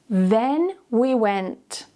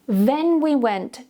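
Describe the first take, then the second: First: It is said at a slower, careful pace. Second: It is said at a faster pace.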